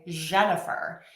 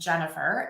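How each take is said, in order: First: The name begins with a soft zh sound. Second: The name begins with a hard j sound. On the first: The speaker calls it wrong. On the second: The speaker calls it right.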